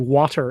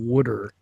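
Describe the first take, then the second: First: The word is said without a Philadelphia accent. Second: The word is said in a Philadelphia accent. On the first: The speaker calls it right. "I say water" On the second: The speaker calls it wrong. "instead of wooder"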